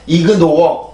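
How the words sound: It is said with Korean-style syllables. The speaker calls it wrong. "틀리는 발음입니다. 이그노어 이 발음이 아니라"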